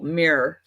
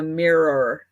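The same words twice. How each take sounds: First: The word is said as one syllable. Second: The word is said as two syllables. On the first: "one syllable" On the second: "not like a mirror"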